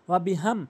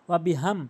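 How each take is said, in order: The two takes are said the same way.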